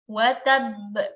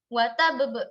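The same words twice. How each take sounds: First: The first b is held, the second bounced. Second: Both final b sounds are bounced separately. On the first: The speaker calls it right. "ba pertama kita baca sebagai sukun biasa ... ba yang kedua itu kita pantulkan" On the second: The speaker calls it wrong. "Dua-duanya kita pantulkan"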